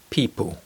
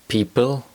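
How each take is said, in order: First: The final L sounds like a W. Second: The final L is a dark L.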